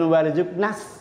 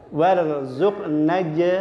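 First: The final consonant is hissed like an s. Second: The final consonant is a clear j sound. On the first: The speaker calls it wrong. "Mboten warzuqnas. ... kok dadi berdesis" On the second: The speaker calls it right. "Padahal tidak ada sin mati"

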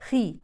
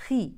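Both takes have the same delivery.

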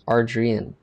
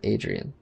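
First: An r sound follows the first vowel. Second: No r sound follows the first vowel. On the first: The speaker calls it right. "It's Ardrian" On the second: The speaker calls it wrong. "not Adrian"

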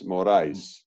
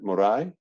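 First: The final S sound is clearly pronounced. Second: The final S sound is left silent. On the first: The speaker calls it right. "The S on the end actually is sounded" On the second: The speaker calls it wrong. "How do I pronounce it?"

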